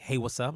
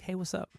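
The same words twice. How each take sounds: First: It is said in an angry, irritated tone. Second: It is said in a calm, relaxed tone. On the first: The speaker is upset and annoyed. "gonna read it differently" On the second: The speaker is casual and unbothered. "I'm gonna be like at home chilling"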